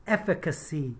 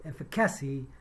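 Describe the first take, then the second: First: "efficacy" said EF-fi-ca-see, stress on the first syllable; correct pronunciation. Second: "efficacy" said ef-fi-CA-see, stress moved to the "ca"; imitated mispronunciation. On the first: Shown as a demonstration. Teacher showing the right "efficacy". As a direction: say "efficacy" with the weight up front. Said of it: "what she meant to say is the". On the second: Teacher imitating the newsreader's wrong "efficacy". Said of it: "She said".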